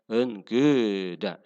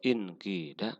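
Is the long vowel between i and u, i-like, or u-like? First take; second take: between; i-like. First: The long vowel falls between u and i. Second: The long vowel is a clear i sound.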